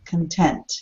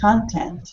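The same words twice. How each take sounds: First: The stress is on the second syllable. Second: The stress is on the first syllable. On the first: It is an adjective meaning satisfied. "the shift goes to the second syllable" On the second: It is a noun meaning material. "the noun content"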